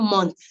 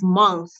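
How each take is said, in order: First: The word ends with a hard t sound. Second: The word ends with a soft th sound. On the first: The speaker calls it wrong. "not month" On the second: The speaker calls it right. "M O N T H is month"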